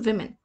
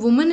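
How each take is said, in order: First: The first vowel sounds like ee. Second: The first vowel sounds like oo. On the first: The speaker calls it right. "The right pronunciation is विमेन" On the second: The speaker calls it wrong. "वुमेन is the wrong pronunciation"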